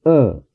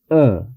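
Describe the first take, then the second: First: The vowel is a lax, neutral uh sound. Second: The same.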